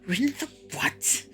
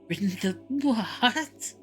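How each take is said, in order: First: It is said in a plain, contemptuous voice. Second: It is said like a horse's neigh.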